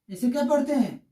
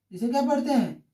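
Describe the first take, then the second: No difference in how they are said.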